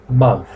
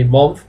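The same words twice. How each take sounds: First: The vowel sounds like an A. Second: The vowel sounds like an O. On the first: The speaker calls it right. "you pronounce month with an A" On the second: The speaker calls it wrong. "not with an O. Don't say month, please, because that is incorrect"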